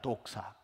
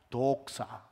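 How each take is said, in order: First: It is said like the ordinary Korean word. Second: It is said with a fancier, more foreign pronunciation.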